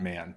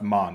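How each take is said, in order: First: The vowel is a flat 'a' as in 'man'. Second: The vowel is an open 'o' as in 'mon'. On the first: The speaker calls it wrong. "not man" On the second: The speaker calls it right. "pronounced mon"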